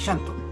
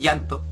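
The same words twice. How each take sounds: First: The double L sounds like sh. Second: The double L sounds like a y. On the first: "en Argentina se digan" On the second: "en Chile digamos"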